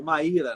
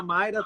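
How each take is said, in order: First: "Maíra" with the stress on the í, ma-Í-ra; Maíra said right. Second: "Mayra" with the stress on the first syllable, MAY-ra; Mayra said wrong. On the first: ("Maíra" com a tônica no í, ma-Í-ra) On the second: ("Mayra" com a tônica na primeira sílaba, MAI-ra) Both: Shown as a demonstration. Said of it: "o acento é no I".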